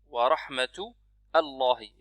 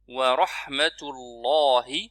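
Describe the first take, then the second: First: Rahmatu and Allahi are split by a break. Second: Rahmatu and Allahi run together without a break. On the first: The speaker calls it wrong. "Ce n'est pas wa rahmatu Allahi" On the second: The speaker calls it right. "Il faut absolument dire wa rahmatullahi"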